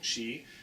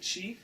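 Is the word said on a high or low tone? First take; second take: low; high. First: The word is said on a low tone. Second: The word is said on a high tone. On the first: The phrase stays in its usual place. "it's low" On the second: The phrase is moved to the front.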